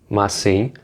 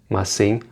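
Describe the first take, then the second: Both takes have the same delivery.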